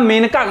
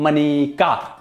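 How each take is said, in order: First: The name is said as two syllables, Men-ka. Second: The name is said as three syllables, Ma-ne-ka. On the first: The speaker calls it wrong. "उनका नाम मेनका गांधी है" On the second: The speaker calls it right. "पढ़ो बच्चों, मनेका"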